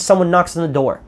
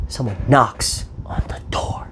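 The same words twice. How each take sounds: First: Said in the usual way. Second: Hushed whisper. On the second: Retold or imitated. Retelling the movie's tense moment to viewers, whispered slowly.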